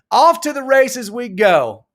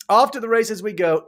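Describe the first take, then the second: First: Big send-off. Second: Said in the usual way. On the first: Pretend. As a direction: announce it slowly like a race caller. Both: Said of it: "repeats the send-off line".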